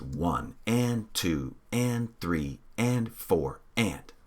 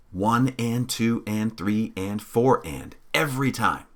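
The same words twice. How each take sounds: First: Slow, even counting of the beat; slow steady count. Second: Said in the usual way. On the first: Shown as a demonstration. Teacher demonstrating the count to the class, slow and even. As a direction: spell out one and two and three and four and slowly, evenly. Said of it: "We're always gonna say all the numbers". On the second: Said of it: "we're going to say".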